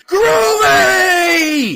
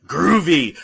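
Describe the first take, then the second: First: Groovy screamed much higher and louder, held long; crowd scream. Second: Said in the usual way. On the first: Retold or imitated. Audience screaming the line back at the screen, a long mock scream. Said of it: "the whole audience screams". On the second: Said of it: "when he goes".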